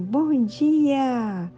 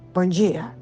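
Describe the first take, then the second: First: It is said in a friendly, pleasant way. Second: It is said in a harsh, rude way.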